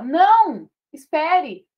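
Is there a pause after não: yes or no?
yes. There is a pause after não.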